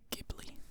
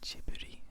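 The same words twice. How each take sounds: First: The name is said with an English pronunciation. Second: The name is said with a Japanese pronunciation. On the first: "I always say Ghibli when saying it in English" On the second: "So in Japanese, it's Ghibli"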